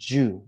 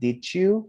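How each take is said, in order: First: The words merge into one short 'ju' sound. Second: Both words are said fully and separately. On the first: The speaker calls it right. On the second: The speaker calls it wrong. "it's not"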